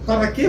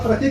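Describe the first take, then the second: First: The first word is said with two syllables. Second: The first word is shortened to one syllable. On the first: Hardly anyone speaks this way. "Dificilmente você vai ver alguém falando assim" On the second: This is the common everyday pronunciation. "ela é substituída pela palavra pra"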